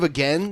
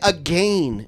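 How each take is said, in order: First: It is said in an American accent. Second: It is said in a Canadian accent. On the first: "instead of again" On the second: "they say again"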